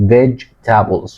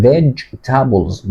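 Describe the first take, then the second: First: Slow, careful vegetables as VEJ-ta-bulz; correct pronunciation. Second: Vegetables said as VEJ-ta-bulz, three syllables; correct pronunciation. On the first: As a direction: spell out vegetables in three beats. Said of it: "خلي بالك اسمها vegetables". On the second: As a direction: say vegetables with the middle e dropped. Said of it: "اسمها vegetables مش vegetables". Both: Shown as a demonstration.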